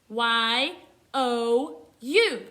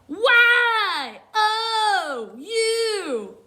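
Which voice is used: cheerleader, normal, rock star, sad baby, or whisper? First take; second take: normal; rock star. First: It is spelled in a plain, ordinary voice. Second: It is spelled in a loud, gritty rocker voice. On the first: "let's spell it in our normal voice" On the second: "let's read it like a rock star"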